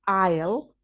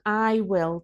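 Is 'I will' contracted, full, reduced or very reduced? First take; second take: reduced; full. First: The contraction is said with a reduced vowel. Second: Both words are said fully and separately. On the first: "that's often pronounced I'll" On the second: "We usually shorten I will"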